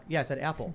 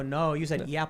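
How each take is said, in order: First: Said in the usual way. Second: "yapple" with a y-glide, as YAP-ul; imitated Chicago A. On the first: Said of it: "And I'll be like". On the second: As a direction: mimic the glide at the start of "yapple". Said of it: "And they'll go".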